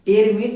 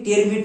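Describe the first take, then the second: No difference in how they are said.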